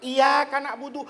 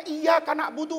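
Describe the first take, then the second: First: "Iyyaka" with a single, light y; without doubling. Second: "Iyyaka" with a doubled y; doubled consonant. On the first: Preacher offering a variant reading, "Iyyaka" without tasdid. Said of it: "Kenapa nggak dibaca tanpa". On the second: Preacher demonstrating tasdid to listeners, "Iyyaka" with doubled y. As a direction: lean on the double y in "Iyyaka Na'budu". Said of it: "pakai tasdid". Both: Shown as a demonstration.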